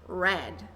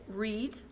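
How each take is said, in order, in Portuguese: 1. É pronunciado como a forma do passado. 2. É pronunciado como a forma do presente. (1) "passado, read" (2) "presente é read"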